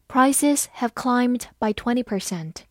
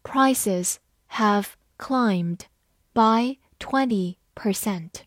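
First: Said in the usual way. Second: Slow, word by word; measured teacher's model reading. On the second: Shown as a demonstration. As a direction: read slowly with pauses between words. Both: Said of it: "慢读一遍".

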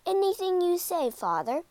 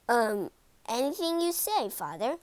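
First: Keen, higher eager yes. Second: Hesitant, trailing grudging yes; reluctant. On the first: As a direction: agree gladly and brightly. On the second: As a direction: agree without wanting to. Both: A narrator's reading. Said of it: "didn't sound so happy".

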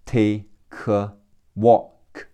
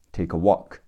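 First: "Take a walk" split as "tay, kuh, walk"; broken into syllables. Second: "take a walk" joined quickly as "tay-kuh walk"; linked sounds. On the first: Teacher breaks down linking, "Take a walk" as "tay, kuh, walk". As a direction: pause between chunks, moving the k of "Take" onto "a". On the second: Teacher puts the pieces together, "take a" linked in "take a walk". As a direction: run "take a" together as one unit. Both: Shown as a demonstration. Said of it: "克和呃会连起来读".

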